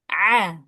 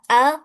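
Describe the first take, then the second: First: The vowel starts with a tight squeeze mid-throat. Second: The vowel starts with a plain catch low in the throat. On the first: "huruf ain a" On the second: "huruf hamzah a"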